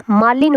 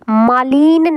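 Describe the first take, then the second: First: मालिन with a brief, quick i; teacher modelling the correct short i. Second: मालिन with the i stretched out; teacher showing the wrong long i. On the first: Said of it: "मालिन होता है". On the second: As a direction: drag the i in मालिन. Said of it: "मालिन नहीं होता है". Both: Shown as a demonstration.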